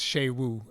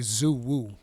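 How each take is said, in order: First: The name starts with a sh sound. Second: The name starts with a z sound. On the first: The speaker calls it right. "no, it's Shaywu" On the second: The speaker calls it wrong. "I thought the X was going to read like a Z"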